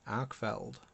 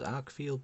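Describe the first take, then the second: First: The second syllable sounds like 'feld'. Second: The second syllable sounds like 'field'. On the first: The speaker calls it right. "there's no I in there" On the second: The speaker calls it wrong. "commonly mispronounced as Arkfield"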